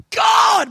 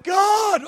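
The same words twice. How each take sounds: First: High, loud cry of "God!"; desperate shouted "God!"; mock cry to God. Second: Plea of "God!" at normal volume; high cry to God. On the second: Pretend. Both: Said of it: "Maybe he went".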